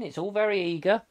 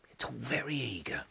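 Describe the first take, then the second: First: Said in the usual way. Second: Much softer, lower echo; under the breath, lower; quiet aside. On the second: Real, not acted. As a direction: drop it to a small murmured aside. Echoes own remark as aside.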